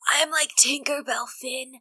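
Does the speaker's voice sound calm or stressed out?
stressed out. The line is said in a stressed, frantic voice. The speaker calls it right. "I gotta do the stressed out voice"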